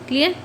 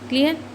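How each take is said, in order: Both takes have the same delivery.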